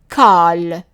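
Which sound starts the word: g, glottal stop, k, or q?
k. The word starts with a k sound. This is the form used in a small part of Palestine. "that small part of Palestine"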